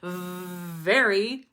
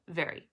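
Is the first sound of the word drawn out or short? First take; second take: drawn out; short. First: The first sound is held out long. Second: The first sound is cut off short. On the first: "you don't have to hold out the, the sound like very" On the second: "Then you just chop it off"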